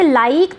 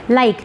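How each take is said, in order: First: लाइक with a drawn-out long ee, like laa-eek; wrong long vowel. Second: लाइक with a short i in the diphthong; short vowel glide. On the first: Teacher shows students the mistake, लाइक with long ee. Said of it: "बड़ा ई नहीं होता है". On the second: Teacher models the word, लाइक with short i. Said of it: "छोटा रहेगा". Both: Shown as a demonstration.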